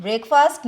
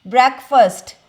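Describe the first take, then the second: First: ब्रेकफास्ट said as brek-fast, each part clear; the wrong way, ब्रेकफास्ट as brek-fast; wrong pronunciation. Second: ब्रेकफास्ट said as brekfəst, unstressed second part; ब्रेकफास्ट run together as brekfəst; right pronunciation. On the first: Teacher showing students the wrong way to say it, brek-fast. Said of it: "इसको ब्रेकफास्ट नहीं बोलते". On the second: Teacher showing students the right way to say it, brekfəst. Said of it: "नहीं, इसको बोलते हैं". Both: Shown as a demonstration.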